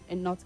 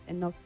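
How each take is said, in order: The two takes are said the same way.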